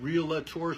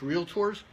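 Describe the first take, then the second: First: An extra vowel sound is added in the middle. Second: No extra vowel sound is in the middle. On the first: The speaker calls it wrong. "A lot of us hear from time to time realtors" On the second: The speaker calls it right. "There's no A in the middle. It's realtors"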